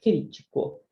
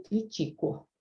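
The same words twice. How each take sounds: First: Crítico with the stress on CRÍ; stress on first syllable. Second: Critico with the stress on TI; stress on second syllable. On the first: Teacher showing the accented word, crítico stressed on CRÍ. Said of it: "E se eu colocar acento". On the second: Teacher reading the unaccented verb, critico stressed on TI. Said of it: "Se eu deixar sem acento, vai ficar o verbo". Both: Shown as a demonstration.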